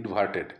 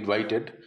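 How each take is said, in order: First: The middle vowel sounds like 'ar', with r. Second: The middle vowel sounds like 'ai', without r. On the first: The speaker calls it right. "কথাটা মনে হবে ইনভার্টেড" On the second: The speaker calls it wrong. "অনেকে বলে ইনভাইটেড। ইনভাইটেড না"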